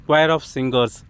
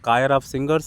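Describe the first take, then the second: First: The first word starts with a kw sound. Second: The first word starts with a k sound. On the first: The speaker calls it right. "after the dictionary only I came to know its குவயர்" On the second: The speaker calls it wrong. "அப்படிலாம் நான் படிச்சுட்டு இருந்தேன்"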